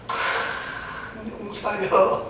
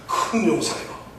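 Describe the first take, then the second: First: It is said in a mocking, offhand tone. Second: It is said in a composed, solemn voice.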